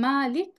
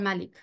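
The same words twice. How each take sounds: First: The vowel after the m is drawn out long. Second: The vowel after the m is kept short. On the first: Owner. "মিমের উপরে মাদ সহ" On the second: King. "মাদ ছাড়া"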